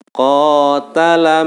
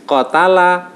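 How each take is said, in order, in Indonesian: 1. Vokal pertama ditahan dua ketukan. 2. Vokal pertama dipotong pendek, tidak dipanjangkan. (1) "Ini ada yang dibaca panjang, yaitu bacaan qa" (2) "oh berarti itu enggak ada bacaan matnya"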